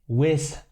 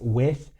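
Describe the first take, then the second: First: The word ends in a buzzing z sound. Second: The word ends with the tongue between the teeth. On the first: The speaker calls it wrong. "Wiz hat er da gerade gesagt" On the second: The speaker calls it right. "mit T H am Ende und dann muss man die Zunge halt zwischen die Zähne stecken"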